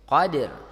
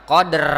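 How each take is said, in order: First: The final r is faint and barely audible. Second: The final r is strongly rolled and prominent. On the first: The speaker calls it right. "huruf ra-nya terdengar minimal" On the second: The speaker calls it wrong. "enggak terlalu banyak, bukan qadr. Nah, itu salah juga"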